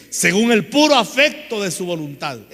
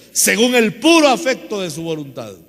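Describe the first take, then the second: No difference in how they are said.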